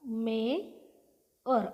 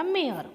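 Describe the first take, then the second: First: मेअर very slowly, split as मे, then अर; syllable-by-syllable demo. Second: Said in the usual way. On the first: Shown as a demonstration. Teacher breaks down मेअर for learners, slow syllable demo. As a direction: stretch मे, pause, then finish मेअर with अर. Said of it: "म याचा उच्चार कसा झाला?". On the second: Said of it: "अ जसा तसा लिहिला".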